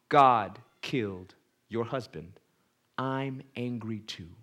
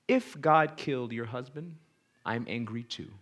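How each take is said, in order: First: "God killed your husband" slowed, each word weighed; slow emphatic repeat. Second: Said in the usual way. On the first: Shown as a demonstration. Preacher repeats the counselor's reply, slow and emphatic. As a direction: linger on it so it sinks in. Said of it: "Did you catch that?".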